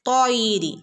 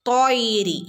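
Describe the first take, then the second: No difference in how they are said.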